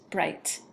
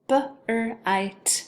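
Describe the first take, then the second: First: Said in the usual way. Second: "B-R-I-T" as b, r, long i, t; tapped out. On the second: Shown as a demonstration. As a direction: break "B-R-I-T" apart sound by sound. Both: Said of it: "have you tap it out".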